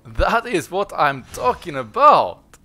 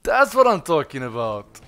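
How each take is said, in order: First: Slow, loud, savoured cheer; drawn-out victory shout. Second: Loud triumphant cheer; excited shout. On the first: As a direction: stretch out the triumph, louder. Repeats it, drawn out. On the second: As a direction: celebrate the win out loud. Celebrating the boss kill. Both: Real, not acted.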